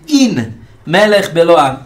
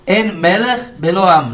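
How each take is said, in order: First: The first word is pronounced 'in'. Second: The first word is pronounced 'en'. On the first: There is a king who needs no people. "Se lê o seguinte" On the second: There is no king without a people. "En é não"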